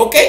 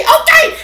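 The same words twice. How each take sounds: First: Said in the usual way. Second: Very high, louder squeaked okay; squeaky catchphrase echo. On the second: Pretend. Host playfully echoing the okay to viewers, squeaky.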